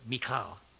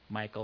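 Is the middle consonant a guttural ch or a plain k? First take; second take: guttural ch; plain k. First: The middle consonant is a throaty, guttural ch. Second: The middle consonant is a plain k sound. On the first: This is closer to the original Hebrew pronunciation. "That wasn't too bad. That came close" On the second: This is the usual English pronunciation. "the more common name here"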